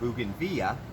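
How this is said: It is pronounced the Spanish way.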